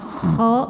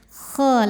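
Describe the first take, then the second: First: The kh is a harsh, snoring throat sound. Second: The kh is a softer, gentler throat sound. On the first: The speaker calls it wrong. "jangan terlalu ngorok kho" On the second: The speaker calls it right. "Jadi kho lebih halus"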